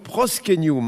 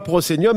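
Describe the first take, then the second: First: The word is pronounced with Latin-style sounds. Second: The word is pronounced with French-style sounds. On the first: The speaker calls it right. "mais donc proscenium" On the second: The speaker calls it wrong. "et pas proscenium"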